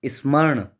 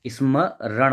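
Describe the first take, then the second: First: "स्मरण" as one quick word; wrong form स्मरण. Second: "स्मरण" slowly, split before the "ran"; correct form स्मरण. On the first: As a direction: say स्मरण run together. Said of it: "तो ये गलत है". ("स्मरण" एक साथ, गलत रूप में) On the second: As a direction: break स्मरण into isma-ran. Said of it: "स्मरण होता है". ("स्मरण" धीरे तोड़कर, रण अलग) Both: Shown as a demonstration.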